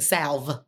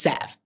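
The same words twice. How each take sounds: First: The L sound is clearly pronounced. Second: The L sound is silent. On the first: The speaker calls it wrong. "It has an L in it. Don't get it twisted. I'm country. I've been calling this thing salve" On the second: The speaker calls it right. "She said, it's salve"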